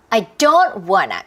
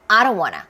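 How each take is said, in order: First: The stress is on don't and wanna. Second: The stress is on I, said fast.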